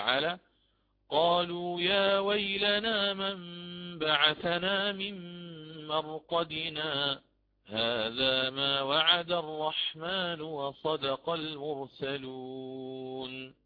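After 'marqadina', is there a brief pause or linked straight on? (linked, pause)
pause. A brief pause follows marqadina before continuing.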